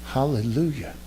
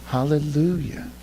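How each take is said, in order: Both takes have the same delivery.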